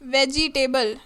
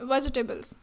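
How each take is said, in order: First: The middle vowels are pronounced fully and clearly. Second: The middle vowels are reduced to a schwa. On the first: The speaker calls it wrong. "नहीं" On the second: The speaker calls it right. "So we are making this श्वास sound"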